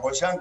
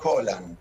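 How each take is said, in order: First: The name is said the Spanish way, stressing the end. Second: The name is said with a Scottish-style pronunciation. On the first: This is how most people end up saying it. "que ya incluso algunos le ponen el acento" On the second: This is the name's original pronunciation. "es de origen escocés y sería Holland"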